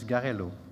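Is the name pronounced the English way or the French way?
French. The name is pronounced with French sounds. "in French it's Garello"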